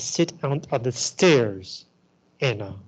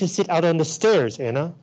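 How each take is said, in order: First: The line is said in a sarcastic, grudging tone. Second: The line is said in a sincere, willing tone. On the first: The speaker is not willing to wait outside. "Which means she's not willing at all" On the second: The speaker truly is willing to wait outside. "You don't have to let me in. I'm willing to sit outside"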